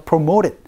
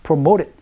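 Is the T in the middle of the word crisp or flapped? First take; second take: flapped; flapped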